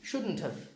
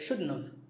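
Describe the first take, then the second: First: The T in shouldn't is clearly pronounced. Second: The T in shouldn't is left out.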